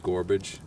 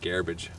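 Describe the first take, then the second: First: It uses a pronunciation from another region. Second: It uses the local New Brunswick pronunciation. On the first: "in different places, it might be gorbage" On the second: "but here it's garbage"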